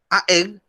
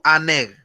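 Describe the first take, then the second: First: Two vowels meet with no n between them. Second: An n sound links the two vowels together. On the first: The speaker calls it wrong. "Aeg suena raro" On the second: The speaker calls it right. "suena más armonioso al decirlo"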